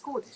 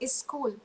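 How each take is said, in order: First: The word starts directly with the s sound. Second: An extra vowel comes before the word. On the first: The speaker calls it right. "instead of school" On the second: The speaker calls it wrong. "we still um, say is school"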